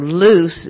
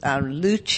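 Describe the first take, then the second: First: The name is pronounced the French way. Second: The name is pronounced the Italian way. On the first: It is the French word for light. "because that's French for light" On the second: It is the Italian word for light. "as the owners would like, for Italian for light"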